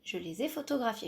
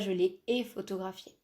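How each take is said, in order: First: The s of les links to ai as z. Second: Les and ai are said without a linking z. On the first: The speaker calls it right. "Je fais la liaison là entre le, le S du les et le A I" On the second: The speaker calls it wrong. "On ne dit pas"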